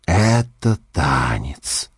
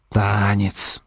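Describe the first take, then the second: First: Put-on slow, slurred drunken musing. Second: Put-on drunk voice. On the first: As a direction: drag it out like a drunk. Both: A narrator's reading. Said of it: "раздумчиво пьяным голосом".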